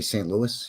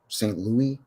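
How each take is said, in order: First: The name is said the way Ontario says it. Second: The name is said the way Quebec says it. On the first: The place is in Ontario. "if it was in Ontario, they would say Saint Louis" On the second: The place is in Quebec. "if it's something in Quebec, they would pronounce it Saint Louis"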